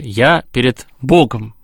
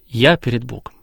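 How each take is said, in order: First: The stress falls on the word перед. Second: The stress falls on the word я. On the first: The prayer is a relation between two. "Все-таки нас двое" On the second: The one praying puts himself at the center. "Акцент на «я»"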